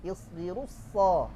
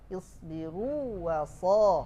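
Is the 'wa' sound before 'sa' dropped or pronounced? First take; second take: dropped; pronounced. First: The 'wa' sound is dropped entirely. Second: The 'wa' sound is clearly pronounced. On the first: "lebih mudah kan?" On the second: "Agak susah"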